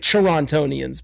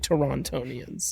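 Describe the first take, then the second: First: The second T in Toronto is dropped. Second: The second T in Toronto is clearly pronounced. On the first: The speaker is from the city. The speaker calls it right. "we we would say Torontonians" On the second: The speaker is from elsewhere. The speaker calls it wrong. "but you would say Torontonians"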